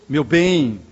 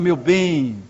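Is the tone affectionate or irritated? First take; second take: irritated; affectionate. First: It is said in an impatient, irritated tone. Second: It is said in a tender, affectionate tone. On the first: The partner has become an annoyance. "A entonação já é diferente" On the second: The partner is still adored. "Olha o sentimento poético"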